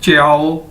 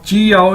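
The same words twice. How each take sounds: First: "च्याओ" run together, ch gliding straight into yao; corrected pronunciation. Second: "चियाओ" split with a full "ee" after ch; mispronunciation demo. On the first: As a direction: say "च्याओ" as one syllable, no separate "ee". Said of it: "इसको कहना च्याओ". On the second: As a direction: say "चियाओ" as chee-yao, in two parts. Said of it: "चियाओ नहीं कहना इसको". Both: Shown as a demonstration.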